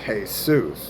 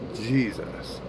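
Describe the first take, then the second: First: The name begins with a Y sound. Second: The name begins with a J sound. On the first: This is the original form of the name. The speaker calls it right. "his name's Jesus" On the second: This form did not exist back then. The speaker calls it wrong. "not Jesus, because back then there was no J"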